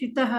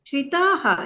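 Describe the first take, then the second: First: The final vowel is cut short. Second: The final vowel is held long. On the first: The speaker calls it wrong. "ಯಾಕೆ ಶ್ರಿತಃ ಅಂತೀರಾ?" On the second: The speaker calls it right. "ಶ್ರಿತಾಃ ದೀರ್ಘ ಇದೆ ನೋಡಿ"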